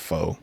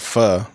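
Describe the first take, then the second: First: The word ends with a long O. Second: The word ends with a short vowel. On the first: "It's a long O at the end" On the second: "it's called pho, but I swear to God, dude, I'll never say that"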